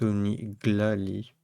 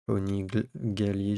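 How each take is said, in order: First: The name has an L sound after the g. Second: The name has no L sound after the g. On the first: The speaker calls it right. "C'est peut-être Oniglali. Autant pour moi" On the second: The speaker calls it wrong. "je sais pas si on prononce le L, le premier. Onigali, je disais"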